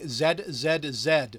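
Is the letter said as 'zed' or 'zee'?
zed. The letter is said the non-American way, 'zed'.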